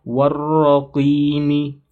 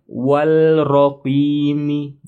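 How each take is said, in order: First: "Warraqimi" slow with a doubled r and no l; merged lam. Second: "walraqimi" with an audible l, the error; wrong with l. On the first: ("Warraqimi" dibaca tasydid pada ra) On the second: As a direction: say "walraqimi" as the mistake. ("walraqimi" dengan l, salah) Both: Shown as a demonstration. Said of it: "bukan walraqimi".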